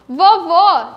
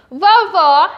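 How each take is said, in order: First: "Vovô" ending in a closed ô; final o of "Vovô" as closed "oh" sound; closed vowel. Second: "Vovó" ending in an open ó; final o of "Vovó" as open "aw"-like sound; open vowel. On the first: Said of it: "tem o som mais fechado". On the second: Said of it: "que tem o som mais aberto". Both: Shown as a demonstration.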